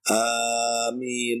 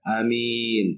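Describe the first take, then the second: First: The first vowel is held long. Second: The first vowel is kept short. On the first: "Bisa alifnya dipanjangkan" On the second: "atau alifnya dipendekkan"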